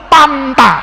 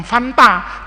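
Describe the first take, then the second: First: Panta said with P replacing F; Sundanese P for F. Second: Said in the usual way. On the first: Shown as a demonstration. Teacher corrects Fanta to the local form, Sundanese P in Panta. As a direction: hit Panta with a plosive P. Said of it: "Orang Sunda itu bukan minum Fanta". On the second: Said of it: "bukan minum Fanta".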